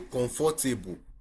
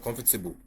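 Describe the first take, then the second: First: Every letter is sounded as it is spelled. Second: It is said without following the spelling. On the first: The speaker calls it wrong. "We will say comfortable" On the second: The speaker calls it right. "instead of comfortable"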